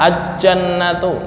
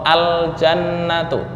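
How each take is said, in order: First: The L sound is merged into a doubled j. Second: The L sound is clearly pronounced before the j. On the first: The speaker calls it wrong. "nggak boleh dibaca aj-jannatu" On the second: The speaker calls it right. "Contoh al jannatu"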